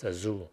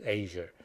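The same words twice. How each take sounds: First: "Azure" said "ah-ZOO"; European pronunciation. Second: "Azure" said "AY-zher"; American pronunciation. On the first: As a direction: say "Azure" as a-ZOO, stress on the end, no final r. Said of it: "in more like European ways". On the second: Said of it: "a lot of Americans pronounce this as". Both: Shown as a demonstration.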